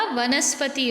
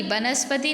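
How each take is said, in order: First: वनस्पति said as "vanaspati"; व sound. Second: वनस्पति said as "banaspati". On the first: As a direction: open वनस्पति with v, not b. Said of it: "व आता है". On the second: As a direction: open वनस्पति with a b sound. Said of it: "वनस्पति नहीं होता". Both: Shown as a demonstration.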